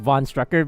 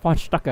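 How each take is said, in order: First: The name is said with an American English pronunciation. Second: The name is said with a German pronunciation. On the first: "they call it just von Strucker because they use like English um yeah English like um uh phonetic you, you know pronunciation" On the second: "when he was like saying his own name, it was like von Stucker"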